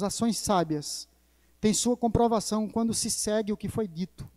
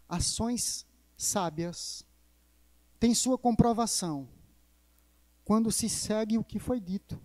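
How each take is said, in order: First: The sentence is spoken at a normal pace. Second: The sentence is spoken more slowly.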